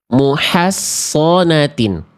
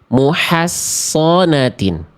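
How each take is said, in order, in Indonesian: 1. Ini memakai s yang tebal dengan vokal yang lebih gelap. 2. Ini memakai s yang tebal dengan vokal yang lebih gelap.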